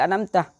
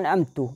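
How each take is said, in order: First: The word ends with an 'a' vowel. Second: The word ends with an 'u' vowel. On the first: God gave the favour. The speaker calls it right. "padahal an'amtah" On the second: The speaker himself gave the favour. The speaker calls it wrong. "baca baca an'amtu padahal an'amtah"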